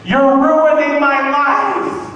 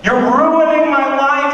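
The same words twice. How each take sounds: First: Put-on high, loud, slow whining teen girl; bratty teen whine. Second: Put-on bratty teen whine. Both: Comic sketches daughter yelling at her proud mother, high whine. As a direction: wail it like a spoiled sixteen-year-old.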